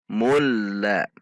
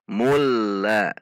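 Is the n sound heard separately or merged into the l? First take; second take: merged; merged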